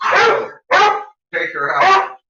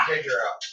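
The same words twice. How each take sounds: First: Much higher, louder rising urging; excited pet talk. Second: Said in the usual way. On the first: Acted. Owner egging his dog on in a much higher voice. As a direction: egg the dog on way up high.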